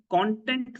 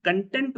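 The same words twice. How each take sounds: First: "content" as KON-tent; stress on first syllable. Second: "content" as kun-TENT; stress on second syllable. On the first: Teacher giving an example sentence about social media, "content" stressed KON-tent. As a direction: stress the start of "content", the noun. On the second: Teacher giving an example sentence about a job, "content" stressed kun-TENT. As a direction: stress the end of "content", meaning satisfied. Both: Shown as a demonstration. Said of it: "the way you pronounce it".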